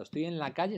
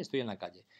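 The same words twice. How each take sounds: First: "Estoy en la calle" ending on a questioning rise; "calle" sung upward as if unfinished; rising tune. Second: "estoy en la calle" dropped low and final; falling tune. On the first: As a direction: lift the voice up on "calle". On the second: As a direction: let "estoy en la calle" settle down, flat and closed. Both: Shown as a demonstration. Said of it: "En un caso es un deíctico".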